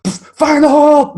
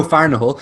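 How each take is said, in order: First: Very high, loud, drawn-out yell; shouted. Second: Said in the usual way. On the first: Retold or imitated. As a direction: holler it like a warning. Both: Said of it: "I think he shouted".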